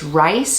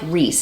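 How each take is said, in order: First: The vowel sounds like the one in 'nice'. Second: The vowel sounds like the one in 'piece'. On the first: The speaker calls it right. "it's Rice" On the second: The speaker calls it wrong. "not like Reese"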